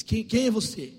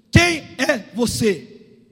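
First: Said in the usual way. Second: Loud, slow, separated words; thundering question. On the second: Acted. God asking Jacob who he is, thundering question. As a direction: hammer out each word as a demand.

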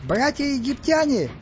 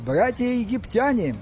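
First: High, drawn-out squeaky call; squeaked proclamation. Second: Slow, raised orator's call; weightier register. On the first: Stas addresses the Egyptians from above, squeaking. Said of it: "пискнул Стас сверху". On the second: Stas starts his address over, weightier and less squeaky. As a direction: proclaim it grandly, a notch below a squeak. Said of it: "регистром ниже, а потому весомее". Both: A narrator's reading.

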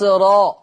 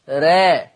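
First: را as a thick, backed "raw"; heavy ra. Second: را as a thin, fronted "reh"; light ra. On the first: Teacher demonstrates Hafs's ra, heavy "ro" for را. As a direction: fill the mouth on را, toward "ro". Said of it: "الراء المفخمة عند حفص". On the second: Teacher contrasts Warsh's ra, thin "re" for را. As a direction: keep را light, toward "re". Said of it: "أما ورش". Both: Shown as a demonstration.

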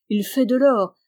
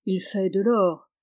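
First: "Il fait de l'or" louder, rising on "or"; louder emphatic "Il fait de l'or"; emphatic repeat. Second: Said in the usual way. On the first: A narrator's reading. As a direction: hammer "de l'or" home the second time. Repeated refrain, second stressed.

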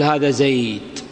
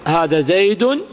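First: زيد cut to "zayd", no ending vowel or n; low, slow stop on the d of زيد; pausal sukun. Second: زيد ending in "-un", as "zaydun"; tanween with damma. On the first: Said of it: "سنقف عليه كما سبيل المؤلف بالسكون". (الوقف على زيد بسكون الدال) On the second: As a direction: sound the nominative n on زيد. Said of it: "بخلاف الضم والكسر". (نطق زيد منونًا بالضم "زيدٌ") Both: Shown as a demonstration.

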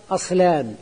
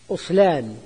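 First: أصلان said as aslan, opening on "a"; opening a vowel. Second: أصلان said as uslan, like رغفان; opening u vowel. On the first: Teacher giving the base of a diminutive, أصلان as aslan. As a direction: start أصلان with a fatha on the hamza. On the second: Teacher offering the other vowelling, أصلان as uslan. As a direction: start أصلان with a damma on the hamza. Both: Shown as a demonstration. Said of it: "على وزن رغفان".

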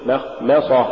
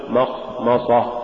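First: مخمصة with light, thin M sounds; correct recitation. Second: مخمصة with the Ms wrongly heavy, dark vowels; mispronunciation demo. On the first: Tajweed teacher giving the form to say, correct recitation. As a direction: keep both Ms of مخمصة light. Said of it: "قل". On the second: Tajweed teacher showing what not to say, mispronunciation demo. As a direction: thicken the Ms of مخمصة. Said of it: "ولا تقل". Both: Shown as a demonstration.

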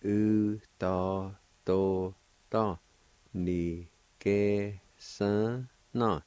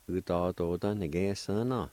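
First: "U ta to ta ni ke san na" drawn out very slowly, syllables linked; slow joined-up word. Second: Said in the usual way. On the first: Shown as a demonstration. Teacher modelling the whole Cherokee word very slowly.

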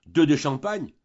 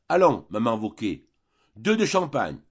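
First: Louder, rising disbelieving question; shocked echo. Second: A mild call across the room, only a touch louder. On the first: Landlady repeating Vautrin's order, outraged at the cost. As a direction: throw the order back in disbelief. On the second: Vautrin calling to the landlady for champagne, mildly raised. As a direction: hail the landlady for champagne, not quite a shout. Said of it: "lui cria Vautrin". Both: A narrator's reading.

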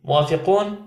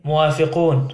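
First: موافقون with a rising question tune. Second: موافقون with a falling, settled tune; falling answer. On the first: Zverkov asks his friends to agree, questioning rise. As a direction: end موافقون going up, asking. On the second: The friends answer Zverkov together, a falling agreement. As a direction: land موافقون down as a firm yes. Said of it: "فأجابوه ضاحكين". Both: A narrator's reading.

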